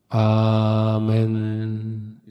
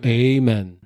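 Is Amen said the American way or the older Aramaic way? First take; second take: Aramaic; American. First: It is said in an older Aramaic-style pronunciation. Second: It is said in an American-style pronunciation. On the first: "Essa inflexão do an em Tamil é muito mais forte do que no aramaico" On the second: "foi para os Estados Unidos da América e se tornou Amen"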